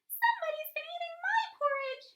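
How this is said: It is said in a high, squeaky voice.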